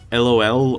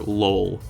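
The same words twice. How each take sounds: First: It is spelled out letter by letter. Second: It is pronounced as a single word. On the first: "do you read out the letters one by one" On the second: "or do you try to make it like a word?"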